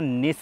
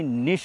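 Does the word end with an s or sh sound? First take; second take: s; sh. First: The word ends with a plain s sound. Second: The word ends with an sh sound. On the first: The speaker calls it wrong. "इस सिटी को ना निस नी निश बोलते हैं" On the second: The speaker calls it right. "Pronunciation निश है"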